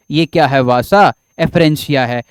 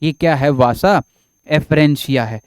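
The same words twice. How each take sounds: The two takes are said the same way.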